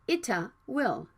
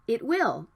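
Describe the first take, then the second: First: The T is released with an added vowel. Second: The T is unreleased before the W. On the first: The speaker calls it wrong. "not ita will" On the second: The speaker calls it right. "It can be unreleased"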